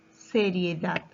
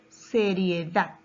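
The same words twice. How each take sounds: The two takes are said the same way.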